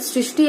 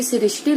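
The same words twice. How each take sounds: First: सृष्टि said as "srishti"; correct ri sound. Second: सृष्टि said as "sirishti"; wrong vowel inserted. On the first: Teacher giving students the right form, "srishti". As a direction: say सृष्टि as "sri-shti", with r right after s. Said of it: "ऐसे सही है". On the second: Teacher showing students the wrong form, "sirishti". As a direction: add an i before the r in सृष्टि. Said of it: "लिख दिए तो गलत". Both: Shown as a demonstration.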